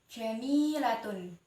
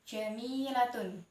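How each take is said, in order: The two takes are said the same way.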